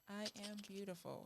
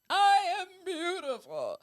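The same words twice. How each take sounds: First: It is said quietly, without conviction. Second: It is said loudly, with conviction.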